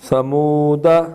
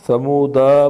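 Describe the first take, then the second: First: The final vowel is kept short. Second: The final vowel is stretched long. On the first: The speaker calls it right. "पढ़ना ठीक है" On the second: The speaker calls it wrong. "पढ़ना गलत है"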